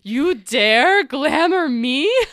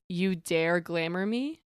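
First: It is said intensely, with strong emphasis. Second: It is said flatly, without much emphasis.

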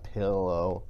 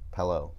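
First: The first vowel sounds like the 'i' in 'bit'. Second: The first vowel sounds like the 'e' in 'bed'. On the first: The speaker calls it wrong. "It's not pillow. That sounds really stupid" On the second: The speaker calls it right. "I'm pronouncing it pillow, almost like there's an E in it"

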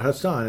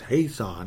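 First: The first vowel is short and clipped. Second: The first vowel is long and drawn out. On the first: The speaker calls it wrong. "It's not Haason" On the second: The speaker calls it right. "it's Haason, because it's 2 A's"

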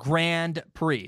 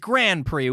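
First: The D sound in Grand is pronounced. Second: The D sound in Grand is left out. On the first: "I say Grand Prix with a D sound" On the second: "it's Grand Prix with a no D sound"

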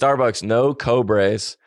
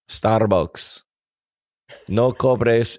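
First: It is read in a plain English accent. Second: It is read in a Spanish accent.

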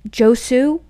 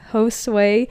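First: The name ends on an 'oo' sound. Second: The name ends on an 'oo-eh' sound. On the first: The speaker calls it wrong. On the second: The speaker calls it right.

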